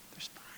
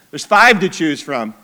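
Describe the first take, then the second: First: Breathy whispered aside. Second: Said in the usual way. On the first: Acted. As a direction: drop to a whisper for "There's five.". Aside before restating the count.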